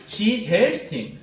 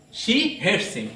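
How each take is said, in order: First: Slow, with hates stressed and falling. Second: Said in the usual way. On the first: Shown as a demonstration. Teacher showing students an emphatic line, hates stressed. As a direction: lean on hates to show the intensity. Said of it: "it is more emphatically is used". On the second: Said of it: "This is simply stated".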